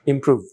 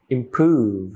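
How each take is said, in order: First: "improve" with a brief oo; short vowel. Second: "improve" with a stretched oo; long vowel. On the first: Teacher gives the take to be corrected, short oo. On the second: Teacher corrects the word for learners, long oo. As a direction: draw out the oo in "improve". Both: Shown as a demonstration.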